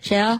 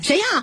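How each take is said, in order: First: It is asked in a timid, frightened voice. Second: It is asked in an angry, forceful voice.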